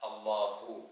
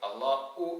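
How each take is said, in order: First: The middle consonant is an h sound. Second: The middle consonant is a glottal stop. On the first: The speaker calls it right. "ഹാ തന്നെ വേണം" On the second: The speaker calls it wrong. "ഹംസയായി ഉച്ചരിച്ച് അല്ലാഹു എന്ന് പറയാറുണ്ട്. അല്ലാഹു എന്നല്ല"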